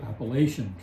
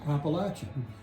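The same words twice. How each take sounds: First: It is said the Northern way. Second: It is said the Southern way. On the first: The speaker is from outside the region. "up into New England... they have chosen to say Appalachian Trail" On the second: The speaker is a local of the region. "in the South, uh, the correct pronunciation is Appalachian"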